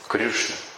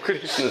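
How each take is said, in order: First: The vowel after Kr sounds like yu. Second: The vowel after Kr sounds like ee. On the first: This is how a particular regional group pronounces it. The speaker calls it wrong. "У них особое произношение ориев" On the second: This is the standard pronunciation. The speaker calls it right. "Ну Кришна же"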